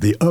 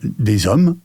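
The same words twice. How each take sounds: First: The s is not linked to the vowel. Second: A z sound links into the vowel. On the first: The speaker calls it wrong. "on ne peut pas dire des hommes" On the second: The speaker calls it right. "on peut dire des hommes"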